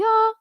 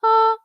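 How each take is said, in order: First: The vowel starts cleanly, neither hard nor airy. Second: The vowel starts cleanly, neither hard nor airy.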